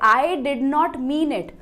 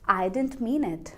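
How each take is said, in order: First: Every word is pronounced fully and separately. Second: 'Did not' is shortened into one quick word. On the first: The speaker calls it wrong. "ऐसे नहीं read करना" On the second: The speaker calls it right. "Drop कर दो sound को"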